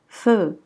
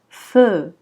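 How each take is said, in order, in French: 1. La voyelle est longue et allongée. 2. La voyelle est longue et allongée.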